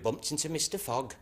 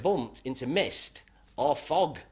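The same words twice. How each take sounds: First: "Mister Fogg" run together like a man's name; misheard run-together words. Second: "mist or fog" slowed, each word set apart; separated words. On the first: Policeman asks the driver, "Mister Fogg" said as one name. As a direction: blur mist or fog into "Mister Fogg". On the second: Policeman correcting the driver, "mist or fog" slowly separated. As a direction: spell out "mist", then "or", then "fog". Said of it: "He said, "No, what would have happened". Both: Acted.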